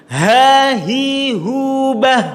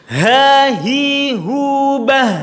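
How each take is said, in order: No difference in how they are said.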